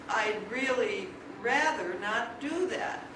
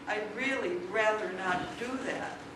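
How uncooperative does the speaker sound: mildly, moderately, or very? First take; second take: very; moderately. First: It sounds very reluctant and uncooperative. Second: It sounds moderately reluctant and uncooperative. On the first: "incrementally uncooperative" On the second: "incrementally uncooperative"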